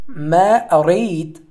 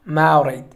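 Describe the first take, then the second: First: The two words are said separately and fully. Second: The two words are said quickly, run together.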